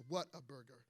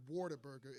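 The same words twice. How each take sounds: First: "What a Burger" as three separate words; corrected pronunciation. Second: "Whataburger" said like "Waterburger"; mistaken pronunciation. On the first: Correcting the Texas chain's name, "What a Burger" said word by word. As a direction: open with a clear "what" in "What a Burger". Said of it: "it's What a Burger". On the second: Showing the congregation the wrong name, "Whataburger" said as "Waterburger". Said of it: "but it's not". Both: Shown as a demonstration.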